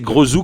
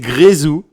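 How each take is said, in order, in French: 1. La première voyelle est un e neutre, non accentué. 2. La première voyelle est un son « é » net. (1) "comme il n'y a pas d'accent" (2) "donc c'est Grézou"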